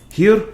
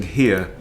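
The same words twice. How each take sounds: First: Hammed-up Russian accent on "Here", much higher and louder; awful Russian accent. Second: Said in the usual way. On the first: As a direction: blurt "Here" in a bad mock Russian accent. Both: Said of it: "awful R-, Russian accent".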